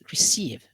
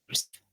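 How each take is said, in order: First: The second vowel is long and drawn out. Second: The second vowel is short and clipped. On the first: The speaker calls it right. "here is a long vowel e" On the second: The speaker calls it wrong. "You won't say receive"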